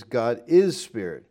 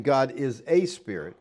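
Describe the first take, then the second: First: "is" leaned on with no article after it in "God is spirit"; stress on is. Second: "a" said as a full, stressed "ay" in "God is a spirit". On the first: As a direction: stress "is" to show the article is dropped. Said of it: "But the New American Standard". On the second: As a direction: lean on the "a" to mark the KJV wording. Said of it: "the K J V has". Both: Shown as a demonstration.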